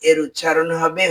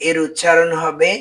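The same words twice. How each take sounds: No difference in how they are said.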